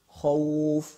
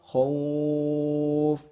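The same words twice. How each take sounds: First: The vowel is held for two counts. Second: The vowel is held for six counts.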